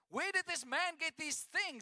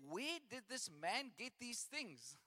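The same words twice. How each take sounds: First: It is read with excited astonishment. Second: It is read flatly, without exclamation.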